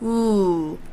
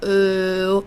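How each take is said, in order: First: The vowel resonates forward at the lips. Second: The vowel resonates far back in the throat. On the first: The speaker calls it right. "It should be ooh, ooh, almost like the sound is here" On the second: The speaker calls it wrong. "in the back of the throat, like ooh or ooh. That's all the way in the back"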